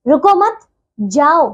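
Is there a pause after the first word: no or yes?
no. There is no pause after the first word. "इसका अर्थ बदल गया"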